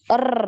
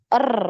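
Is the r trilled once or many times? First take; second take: many times; many times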